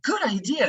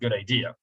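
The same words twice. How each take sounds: First: It sounds sincere and enthusiastic. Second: It sounds doubtful and sarcastic. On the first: The speaker truly likes the idea. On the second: The speaker does not really like the idea.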